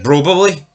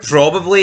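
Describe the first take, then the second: First: The word begins with a B sound instead. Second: The word begins with a normal P sound. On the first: "he was replacing P's with B's" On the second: "instead of probably"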